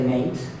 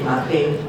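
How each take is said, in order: First: It is said as one syllable, rhyming with 'late'. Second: It is said as two syllables, stress on the last. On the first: "people don't say mate" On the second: "we often find with a stress so that ... they say mate"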